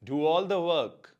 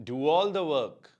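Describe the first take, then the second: The two takes are said the same way.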